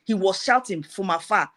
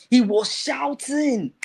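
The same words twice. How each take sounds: First: Said in the usual way. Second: "shouting" stretched out long and pitched high; emphatic repeat. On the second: Retold or imitated. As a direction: draw out "shouting" slowly in a raised storyteller's voice. Repeats it, imitating the shouting's intensity.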